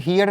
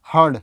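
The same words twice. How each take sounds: First: "हियर्ड" said as hee-yard, with an ee-y glide; "हियर्ड" with the vowel of hear kept in; wrong pronunciation. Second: "हर्ड" as one syllable, herd; "हर्ड" with a single short central vowel before rd; correct pronunciation. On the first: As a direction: say "हियर्ड" in two parts, hee-yerd. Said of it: "हियर्ड नहीं बोलते हैं". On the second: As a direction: say "हर्ड" with no ee-y glide. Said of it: "इसको हम बोलते हैं हर्ड". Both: Shown as a demonstration.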